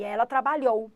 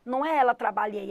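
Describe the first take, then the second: First: Ela trabalhou stressed as the fix; correct form. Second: Ela trabalhei said as the error; wrong form. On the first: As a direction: land on trabalhou as the right answer. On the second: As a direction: quote the mistake ela trabalhei. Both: Shown as a demonstration.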